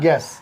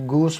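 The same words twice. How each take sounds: First: "गैस" as "ges", hard g straight into e; silent U. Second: "गूस" with a long oo after g; U wrongly sounded. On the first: Teacher models the correct reading, "गैस" with silent U. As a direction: say "गैस" with no u sound after g. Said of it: "यू की आवाज़ नहीं निकलेगी". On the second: Teacher shows what not to read, "गूस" with U sounded. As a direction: say "गूस" as "goos". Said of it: "ना ही गूस पढ़ेंगे". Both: Shown as a demonstration.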